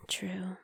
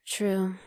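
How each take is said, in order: First: Much softer unvoiced whisper trailing away; fading whisper. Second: Soft unvoiced whisper agreeing. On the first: Echoing her agreement in a fading whisper. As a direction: let the repeat die to a faint whisper. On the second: Agreeing in a whisper with her secret boyfriend. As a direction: breathe the word out in a whisper.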